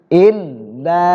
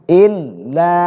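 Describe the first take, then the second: Both takes have the same delivery.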